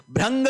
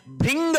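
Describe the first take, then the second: First: भ्रंग said "bhrang", with ra; an a vowel after bhr in भ्रंग; wrong pronunciation demo. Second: भृंग said "bhring", with ri; an i vowel after bhr in भृंग; correct pronunciation model. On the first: Teacher rejecting the wrong word, भ्रंग as "bhrang". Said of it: "भ्रंग नहीं होता है". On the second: Teacher correcting for students, भृंग as "bhring". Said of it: "भृंग होता है". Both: Shown as a demonstration.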